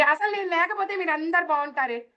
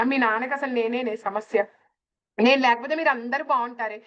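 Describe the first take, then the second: First: Higher, mock self-pitying lament; self-pitying complaint. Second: A hint of a complaining mother, near own voice; lightly voiced mother. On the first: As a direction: play the martyred elder who feels unwanted. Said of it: "విచక్షణ రహితమైన డైలాగులు అండి ఇవి". (ఎక్కువ స్వరంలో బాధపడే నటన) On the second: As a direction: retell mom's line almost plainly. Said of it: "అమ్మ కూడా ఇదే అంటది". (తల్లి మాటను స్వల్పంగా నటించడం)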